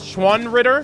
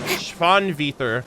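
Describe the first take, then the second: First: It is said with an English-like pronunciation. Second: It is said with a German-like pronunciation. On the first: The speaker calls it wrong. "I call them the Schwanritter" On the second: The speaker calls it right. "the proper pronunciation is like Schwan... Schwanvither, which is like... like German"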